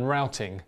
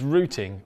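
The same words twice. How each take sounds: First: The word is said in an American way. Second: The word is said in a non-American way. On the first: "if you're more of an American English person" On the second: "that's the way I pronounce it"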